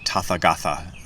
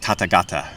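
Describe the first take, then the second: First: The third syllable's consonant is a th sound. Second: The third syllable's consonant is a t sound. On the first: The speaker calls it wrong. "people say Tathagatha um, sometimes" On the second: The speaker calls it right. "like Tathagata is"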